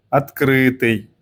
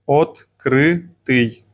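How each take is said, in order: First: Said in the usual way. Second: Открытый drawn out very slowly, each syllable separate. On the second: Shown as a demonstration. Teacher models Открытый for learners, very slowly. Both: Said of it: "Practicing the letter ы".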